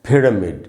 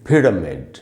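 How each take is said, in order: No difference in how they are said.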